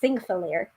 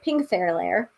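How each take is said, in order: First: The name begins with a th sound. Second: The name begins with a p sound. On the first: The speaker calls it right. "that stands for the T H sound. So it's Thingfalair" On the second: The speaker calls it wrong. "I kept on pronouncing it Pingthairlair, which is not correct"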